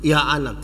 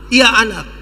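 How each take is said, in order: First: Lightly voiced father, no excitement; casual father's reply. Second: Lightly voiced father answering his child; father's responsive reply; welcoming father. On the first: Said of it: "dia pun bapak bilang". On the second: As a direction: answer the cry readily, with some force. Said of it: "Dia pun bapak sambut".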